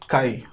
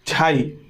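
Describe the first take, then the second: First: The word starts with a k sound. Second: The word starts with a j sound. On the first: The speaker calls it wrong. "I am प्रोनाउंसिएटिंग it काई" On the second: The speaker calls it right. "इसका जो नाम होता है झाई होता है"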